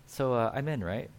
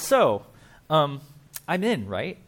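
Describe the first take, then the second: First: Softer, knowing, as if letting out the real meaning; quiet wink at what he truly means; sly aside. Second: A little louder, eager, fishing for a yes; hopeful nudge, sure he's on the list; hopeful asking. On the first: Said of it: "that's code for". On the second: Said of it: "He's like". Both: Retold or imitated.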